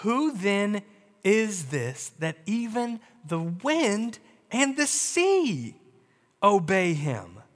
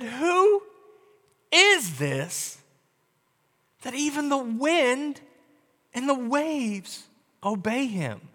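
First: Measured reading of the disciples' question; slow, even reading voice; scripture read slowly. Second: Hushed, trembling wonder at who is in the boat; frightened disciples whisper among themselves; awed, afraid. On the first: A narrator's reading. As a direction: read it slow and steady, like the text itself. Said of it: "and said to one another". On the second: Retold or imitated. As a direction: ask it slowly, half afraid of the answer. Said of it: "very much afraid".

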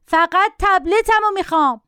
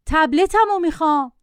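First: Put-on high-pitched, stubborn child's cry; mock yelling. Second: Said in the usual way. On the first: A narrator's reading. Boy refusing any substitute for his tablet, mock yelling. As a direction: insist like a bratty boy yelling. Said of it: "داد زد". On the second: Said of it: "با صدای معمولی گفت".

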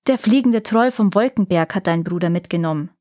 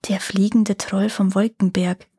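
First: A touch of angry calling out; understated angry cry; angry shout. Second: Lightly pensive murmur; thoughtful. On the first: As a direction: call it out, mildly cross. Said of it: "rief das hässliche Mädchen zornig". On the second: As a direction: turn the name over in your mind. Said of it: "wiederholte Daga nachdenklich". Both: A narrator's reading.

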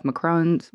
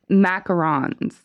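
First: "macarons" said as mac-ROHNS, in two beats; unsure pronunciation. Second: "macarons" drawn out as MACK-uh-rons; own pronunciation. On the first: Real, not acted. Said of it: "is that how you say it". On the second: Shown as a demonstration. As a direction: say "macarons" slowly in three beats, MACK-uh-RONS. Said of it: "I call 'em".

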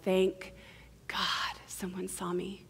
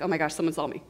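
First: Hushed, breath-out relief; comforted relief. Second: Understated alarm at being seen; mock fright, low and fully voiced; mildly acted terror. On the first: Acted. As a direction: let it out softly, relieved to be seen. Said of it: "Our bodies immediately feel comfort". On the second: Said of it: "we're also immediately terrified".

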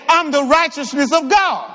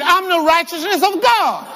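First: Firm, raised preacher's shout; emphatic declaration. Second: High, full-conviction declaration; like you mean it. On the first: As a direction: model a strong declaration for the congregation. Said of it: "y'all said that so weak". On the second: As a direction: proclaim it with total conviction, pitched up high. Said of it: "Say it like you mean it". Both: Shown as a demonstration.

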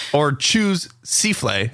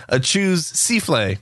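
First: "choose souffle" said as chooz-SEE-flay; mispronounced. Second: "choose souffle" slowly as chooz seeflay; mispronounced. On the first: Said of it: "as I about almost said". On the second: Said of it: "dyslexia would cause me to say". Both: Shown as a demonstration.

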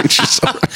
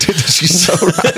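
First: Much higher, squeaked out in awe; high squeaky mock awe. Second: Higher, slow mock awe; mock realization. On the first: Retelling therapist answer, squeaky high mock awe. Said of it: "I was like". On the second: Retelling therapist answer, mock-awed realization. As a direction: act out the sudden realization. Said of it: "and I was like".

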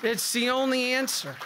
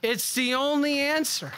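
First: "only" is the peak, the rest falls away; stress on only. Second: "answer" lands hardest, falling at the end; stress on answer. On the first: Priest repeating to the congregation, "only" stressed. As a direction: hit "only", then let it drop. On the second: Priest to the congregation, "answer" stressed. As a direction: lean on "answer" as the final word. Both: Shown as a demonstration.

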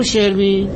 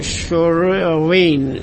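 First: Said in the usual way. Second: "شروین" drawn out slowly with a swallowed American r; botched American pronunciation. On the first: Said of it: "اسم منو درست تلفظ کن". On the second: Retold or imitated. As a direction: struggle through "شروین" as "Shrr-win", very slowly. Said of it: "گفت تلفظ درستشو بلد نیستم".

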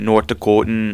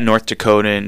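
First: North Dakotan accent with rounded, German-esque vowels; mock North Dakotan, German-esque accent. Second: Said in the usual way. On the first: Shown as a demonstration. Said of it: "like, thick German-esque accent". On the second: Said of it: "thick German-esque accent".

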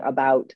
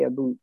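First: Said in the usual way. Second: "about" with an oo vowel, like "aboot"; Atlantic Canadian accent. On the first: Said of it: "they say about". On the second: Shown as a demonstration. Canadian showing how home says it, Atlantic Canadian accent. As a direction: Atlantic Canadian "about", second syllable rhyming with boot. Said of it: "instead of saying about".

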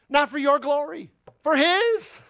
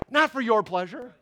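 First: "Not" punched, then "his" higher and rising; stress on NOT and HIS. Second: "Not" hit with a rising push; stress on NOT. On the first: Preacher answering his own question, climbing to "his". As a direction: build from "Not" to a high "his". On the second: Preacher contrasting our pleasure with God's, stress on "Not". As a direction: lean on "Not" to contrast with "his". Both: Acted. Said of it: "For his pleasure and his glory".

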